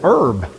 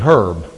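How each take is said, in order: First: The word begins without an h sound. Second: The word begins with an h sound. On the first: It is a plant from the garden. "if you're picking them out of the garden, some people, it's herb" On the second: It is a person's name. "If you meet them on the street, it's probably herb"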